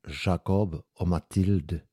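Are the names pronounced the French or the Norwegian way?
French. The names are pronounced the French way. The speaker calls it right. "Det fransk"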